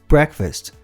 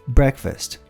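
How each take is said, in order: No difference in how they are said.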